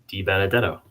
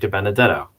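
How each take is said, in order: First: The name is said slowly with exaggerated care. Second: The name is said quickly, flowing together. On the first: It is said for someone else's benefit. "I think I'm overdoing it for your for your benefit" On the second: It is how the name is said in everyday use. "It kind of flows"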